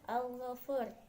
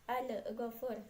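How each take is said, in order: First: The l is closed cleanly with no added vowel. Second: The l is released with a bouncing burst. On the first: The speaker calls it right. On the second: The speaker calls it wrong.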